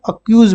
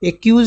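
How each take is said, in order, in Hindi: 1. शब्द 'a' स्वर ध्वनि से शुरू होता है। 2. शब्द 'e' स्वर ध्वनि से शुरू होता है। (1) "अक्यूज बोलेंगे" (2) "एक्यूज नहीं बोलेंगे"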